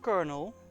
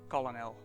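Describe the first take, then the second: First: The word is pronounced differently from its spelling. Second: The word is pronounced just as it is spelled. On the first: "If they wanted it pronounced Colonel" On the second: "I'm pronouncing it Colonel, because that's how it's bleeping spelled"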